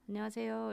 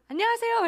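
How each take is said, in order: First: The greeting is said plainly, with ordinary energy. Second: The greeting is said with high, excited energy.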